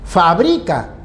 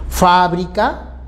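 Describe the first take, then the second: First: The stress is on the second syllable. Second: The stress is on the first syllable. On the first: It names the action of making them. "la acción de elaborarlos" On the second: It names the place where products are made. "Fábrica es el lugar donde se elabora productos"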